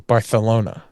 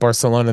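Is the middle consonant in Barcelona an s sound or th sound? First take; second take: th sound; s sound. First: The middle consonant is a th sound. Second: The middle consonant is an s sound. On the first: "they say Barcelona ... anywhere there's like an S sound, she was saying T H's" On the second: "instead of Barcelona"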